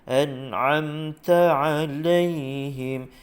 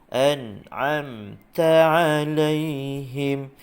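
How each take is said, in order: The two takes are said the same way.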